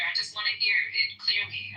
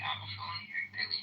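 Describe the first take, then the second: First: Said in the usual way. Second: Voiceless whisper, much softer. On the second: Shown as a demonstration. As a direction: drop to a breathy whisper.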